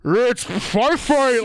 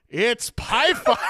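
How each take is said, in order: First: Very slow, much louder, warbled and gargled like a bad speaker; garbled tiny speaker. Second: Slow, booming grandpa imitation, half-laughing; big voice. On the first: Shown as a demonstration. Recreating the game's sound bite for the co-host, warbled and gargled. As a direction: distort it like a crackly old computer speaker. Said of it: "live recreation of it". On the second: Grandfather quoting the game to the kid, big slow voice. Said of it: "in this, like, big voice".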